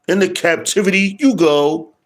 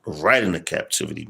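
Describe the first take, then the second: First: Mock sentence. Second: Said in the usual way. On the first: Repeat, raised and mocking.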